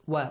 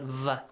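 First: The syllable begins with a w sound. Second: The syllable begins with a v sound. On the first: The speaker calls it right. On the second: The speaker calls it wrong.

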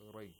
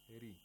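First: The r is heavy, with a full open vowel. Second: The r is light, with a thin front vowel. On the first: The speaker calls it wrong. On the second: The speaker calls it right.

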